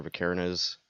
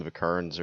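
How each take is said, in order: First: "Vikernes" as vuh-KAIR-nuz, three beats; anglicised "Vikernes", stressed on an airy KAIR syllable; alternative English pronunciation. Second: "Vikernes" as vuh-KURNS, two beats; anglicised "Vikernes", rhyming with burns; English-speaker pronunciation. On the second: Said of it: "most English speakers call him". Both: Shown as a demonstration.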